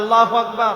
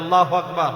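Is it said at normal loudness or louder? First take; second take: louder; normal. First: It is said louder and more forcefully. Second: It is said at normal loudness.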